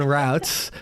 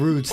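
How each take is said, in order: First: It rhymes with outs, like shout. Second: It rhymes with boots, like tree roots. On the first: The speaker calls it right. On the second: The speaker calls it wrong.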